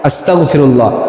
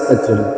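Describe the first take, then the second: First: A guttural 'gh' sound comes before 'firullah'. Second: A hard 'k' sound comes before 'firullah'. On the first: It asks forgiveness from God. The speaker calls it right. "মূল শব্দ ... আমি আল্লাহর কাছে ক্ষমা চাই" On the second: It asks permission to become a disbeliever. The speaker calls it wrong. "তাড়াহুড়া করে বলতে গেলে অনেক সময় আস্তাক ফিরুল্লাহ হয়ে যায়, মানে গড় জায়গায় ক হয়"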